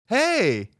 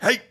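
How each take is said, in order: First: It sounds like a friendly greeting. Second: It sounds like a loud, scary bark.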